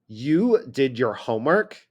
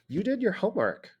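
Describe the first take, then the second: First: The voice sounds doubtful and disbelieving. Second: The voice sounds hopeful and a little uncertain. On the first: The speaker doubts the homework was done. "I don't think you did your homework" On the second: The speaker hopes the homework was done. "Oh, I hope you did your homework"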